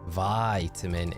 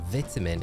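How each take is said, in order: First: The first vowel is a long I sound. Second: The first vowel is a short I sound. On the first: This is the American way to say it. "if you're from America" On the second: This is the British way to say it. "if you're from the U K"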